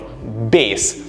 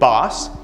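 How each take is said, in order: First: The word rhymes with base. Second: The word does not rhyme with base. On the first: It names a low sound or instrument. "it's pronounced B A S E, or bass" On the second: It names a kind of fish. "It's a kind of fish"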